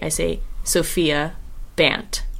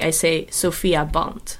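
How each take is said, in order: First: The name is said with an American accent. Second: The name is said with a Dutch accent.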